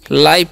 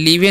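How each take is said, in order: First: The vowel sounds like 'eye'. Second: The vowel sounds like 'ee'. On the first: The speaker calls it right. "लाइव पढ़ते हैं" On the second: The speaker calls it wrong. "लीवे नहीं पढ़ना"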